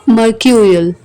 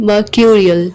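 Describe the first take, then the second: The two takes are said the same way.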